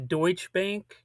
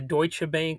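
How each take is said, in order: First: The name is said with an English accent. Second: The name is said with a German accent.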